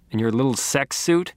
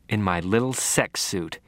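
First: "suit" rising as a question. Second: "suit" falling, a low flat answer; low confirming answer, "suit" going down; resigned echo. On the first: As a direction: ask it, lifting the pitch on "suit". Teasing question, echoed in answer. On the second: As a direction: echo it back lower, dropping on "suit". Glum echo answering the question. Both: A narrator's reading.

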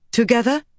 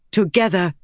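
First: TOGETHER rising high as a question; "Together?" pitched up, seeking agreement. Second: TOGETHER with a falling, settled ending; "Together," falling in pitch to confirm; agreeing. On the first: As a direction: ask "Together?" with a lifted, hopeful ending. Friend asks, other agrees. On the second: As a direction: answer "Together" as a firm statement. Friend agrees, answering the question. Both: A narrator's reading.

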